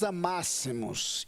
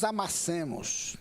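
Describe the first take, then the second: First: The stress falls on the second syllable. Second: The stress falls on the third syllable. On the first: People should love one another. The speaker calls it right. "e Deus diz, que nós nos amássemos" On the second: People should crush one another. The speaker calls it wrong. "e não que nós nos amassemos"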